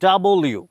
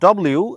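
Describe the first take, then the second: First: The name is said fully as two words. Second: The name is squeezed into a shortened form. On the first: The speaker calls it right. "আমরা বলবো ডাবল ইউ" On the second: The speaker calls it wrong. "Not ডব্লিউ"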